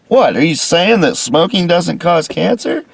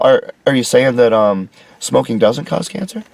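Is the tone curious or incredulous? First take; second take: incredulous; curious. First: It sounds like an indignant, disbelieving challenge. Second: It sounds like a hesitant, genuine question.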